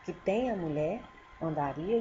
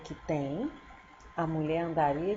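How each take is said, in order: First: The pause comes after the word mulher. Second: The pause comes after the word tem. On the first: The man would crawl looking for the valuable woman. "Se eu colocar a vírgula depois de mulher" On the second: The woman would crawl looking for the valuable man. "Já se for um homem, que escrever ele contrário"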